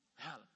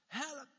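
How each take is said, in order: First: Low, very soft "Help"; quiet plea for help. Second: Calling to God. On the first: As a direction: say "Help" as a subdued prayer. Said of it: "maar die roepen". (zachte, ingehouden smeekbede) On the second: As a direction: lift "Help" into a pleading call. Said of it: "Die roepen tot God". (hoog, smekend geroep) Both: Acted.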